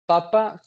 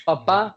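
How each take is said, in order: First: "papa" stressed on PA at the start, unstressed ending; stress on first syllable. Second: "papá" with the final á stressed; stress on last syllable. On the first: Student showing classmates how accents change meaning, "papa" stressed on first syllable. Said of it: "papá con acento en la última A". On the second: Student showing classmates how accents change meaning, "papá" stressed on last syllable. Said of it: "con acento en la última A". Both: Shown as a demonstration.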